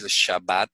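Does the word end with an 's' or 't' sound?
t. The word ends with a 't' sound. This is the official standard form. "en vez de decir Shabbat"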